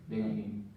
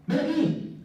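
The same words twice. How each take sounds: First: Low, soft, ominous order; low stern. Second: High, bright, inviting call; eager call. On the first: Teacher demoing a low, soft, stern "Ven aquí". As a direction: say it low and quiet, like a threat. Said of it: "Hay diferencia o no". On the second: Teacher demoing a high, inviting "Ven aquí". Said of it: "hay o no hay diferencia". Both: Shown as a demonstration.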